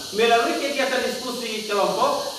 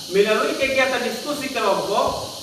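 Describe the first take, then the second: The two takes are said the same way.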